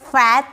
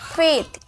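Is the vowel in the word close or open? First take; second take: open; close. First: The vowel is open, like 'eh' or 'a'. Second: The vowel is close, like 'ay'. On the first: The speaker calls it wrong. "फैथ नहीं" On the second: The speaker calls it right.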